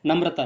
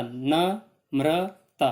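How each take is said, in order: First: Said in the usual way. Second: Namrata broken slowly as न, म्र, ता; pauses after न and म्र; split into three syllables. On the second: Shown as a demonstration. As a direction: say Namrata in three separate drawn-out beats. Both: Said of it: "तीन बार आप इसको split कर सकते हो".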